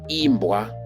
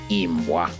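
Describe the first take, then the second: First: The word is said with a high tone. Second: The word is said without the high tone. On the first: It means to be sung. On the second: It means dog.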